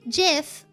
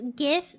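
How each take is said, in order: First: The word begins with a soft J sound. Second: The word begins with a hard G sound. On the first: "If you say GIF, spell it with J" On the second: "If it's GIF, spell it with G"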